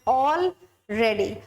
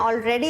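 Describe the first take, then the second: First: The two parts are said as separate words. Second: The two parts run together as one word. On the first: It means everyone or everything is prepared. The speaker calls it right. "हम बोल रहे हैं ऑल ready" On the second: It means by this time. The speaker calls it wrong. "Already नहीं बोल रहे हैं"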